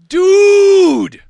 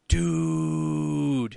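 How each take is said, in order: First: The word is said loudly. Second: The word is said quietly.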